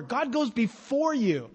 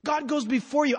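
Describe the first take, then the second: First: Slow, leaning hard on "goes" in "God goes before you"; "goes" held long and weighted; stress on goes. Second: "before" lifted high and punched in "God goes before you"; stress on before. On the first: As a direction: draw out "goes" as the key word. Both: Shown as a demonstration. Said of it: "Just that emphasis over and over".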